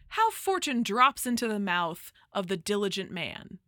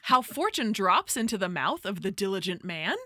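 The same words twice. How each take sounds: First: It is read as a plain statement. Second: It is read with question intonation.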